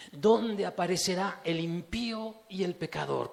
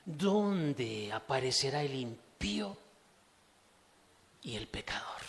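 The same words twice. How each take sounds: First: Stronger, declaiming the verse; the verse read out boldly to the congregation; full voice. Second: Slow, dropping to a whisper at the end; a slow reading that sinks to a whisper. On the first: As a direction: proclaim the question aloud. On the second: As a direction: draw it out, then fade into a whisper. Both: Shown as a demonstration.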